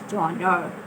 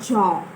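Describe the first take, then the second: First: It is said with an American English pronunciation. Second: It is said with a French pronunciation. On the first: This is how the word is said in American English. "we speak American English, so we will stop ourselves to genre" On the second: This is how the word is said in French. "Genre derived from French, where they call it genre"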